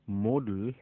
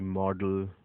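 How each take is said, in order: First: The first vowel is a long 'oh' sound. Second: The first vowel is a short 'o' sound. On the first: The speaker calls it right. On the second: The speaker calls it wrong.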